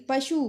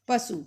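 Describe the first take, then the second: First: पशु with sh in the middle; sh form. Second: पशु said as pasu; plain s inside पशु, not sh; Punjabi s form. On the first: Teacher giving the Hindi word, पशु with sh. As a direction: say पशु with hushing sh. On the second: Teacher showing the Punjabi form, पशु with s. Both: Shown as a demonstration. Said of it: "Punjabi में हो जाएगा".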